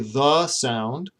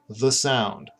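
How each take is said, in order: First: The word 'the' has a full, unreduced vowel. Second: The word 'the' has a reduced 'uh' vowel. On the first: The speaker calls it wrong. "I don't say the sound" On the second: The speaker calls it right. "I say the sound"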